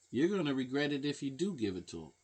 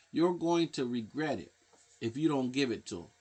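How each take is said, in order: First: Quicker line with "do" clearly stressed. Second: "don't" stressed to set up the contrast. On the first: Countering the parents' fear of refusing, stress on "do". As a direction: punch "do" against the earlier "don't". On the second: Warning parents about refusing the drugs, stress on "don't". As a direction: lean on "don't" as the condition. Contrasting two sides of regret. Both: Shown as a demonstration.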